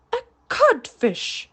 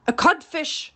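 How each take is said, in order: First: Stunned, slow, high repetition; broken captain repeating the insult; blank echo. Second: Cheeky, raised reply; taunting answer. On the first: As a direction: echo it without understanding. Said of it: "Hook echoed blankly". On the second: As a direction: tease him with the insult. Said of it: "replied the voice". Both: A narrator's reading.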